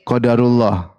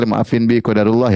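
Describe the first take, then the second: First: A touch of careless shrugging tone; breezy excuse. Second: Apologetic plea. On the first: Wife excusing her loss with a careless qadarullah. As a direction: brush it off lightly as fate. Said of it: "Terus sang istri bilang". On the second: Wife apologising to husband for her mistake, contrite. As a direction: say it like a remorseful wife. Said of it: "kalau datang menyesal". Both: Retold or imitated.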